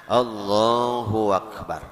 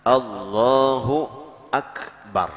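First: A w-sound joins Allahu to akbar. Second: A clear glottal catch starts akbar. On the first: The speaker calls it wrong. "kaya-kaya ada waw tambahan di tengah-tengahnya" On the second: The speaker calls it right. "menyatakan bacaan hamzahnya itu"

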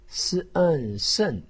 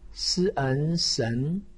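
First: The pitch falls sharply from high. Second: The pitch rises from mid to high. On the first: "四声" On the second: "二声"

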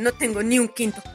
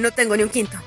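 First: The line is spoken at a slower pace. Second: The line is spoken at a faster pace.

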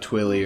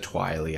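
First: The first syllable rhymes with 'will'. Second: The first syllable rhymes with 'while'. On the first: The speaker calls it right. "I always say Twilly" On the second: The speaker calls it wrong. "Twily doesn't sound as good as Twilly"

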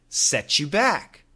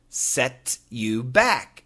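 First: The phrase is said fast, words run together. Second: The phrase is said slowly, word by word.

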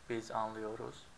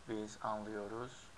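Both takes have the same delivery.

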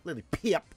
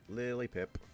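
First: The name is said loudly, with strong emphasis. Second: The name is said plainly, without extra emphasis. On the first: The speaker calls it right. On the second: The speaker calls it wrong.

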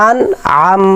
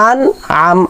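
No difference in how they are said.

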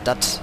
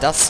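First: It is said in Berlin dialect, like dat. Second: It is said with the standard German final s. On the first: "schön berlinerisch" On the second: "da sagt man nicht das"

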